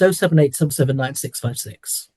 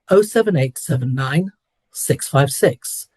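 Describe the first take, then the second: First: The digits run together without pauses. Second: Short pauses split the digits into groups.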